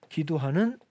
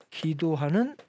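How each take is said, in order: Both takes have the same delivery.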